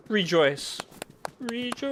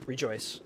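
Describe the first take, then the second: First: Each rejoice higher and louder; rising rejoice. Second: Said in the usual way. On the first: Shown as a demonstration. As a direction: climb up with every rejoice. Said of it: "can hear my lovely voice". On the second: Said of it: "A thousand times rejoice".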